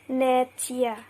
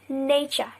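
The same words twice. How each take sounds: First: The middle consonant is a separate t sound. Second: The middle consonant is fused into ch. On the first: The speaker calls it wrong. "We don't pronounce it as nature" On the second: The speaker calls it right. "We we pronounce it as nature"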